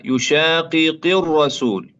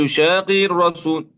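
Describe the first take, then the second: First: Slow يشاقق الرسول with each of the two qafs sounded apart; both qafs clear. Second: Quick يشاقق الرسول with the double qaf swallowed; wrong rushed يشاقق; qafs slurred together. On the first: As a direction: separate the qafs in يشاقق deliberately. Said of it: "يجب بيانها". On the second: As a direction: rush يشاقق, merging the qafs. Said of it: "ولا نقول". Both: Shown as a demonstration.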